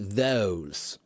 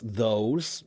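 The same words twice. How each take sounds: First: It has a British-style O vowel. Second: It has an American-style O vowel. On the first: "British English, I think it would be those" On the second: "in American English, it's those"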